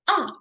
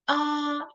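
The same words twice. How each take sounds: First: It is said with the fourth tone. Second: It is said with the first tone. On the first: "the last tone" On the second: "the first tone"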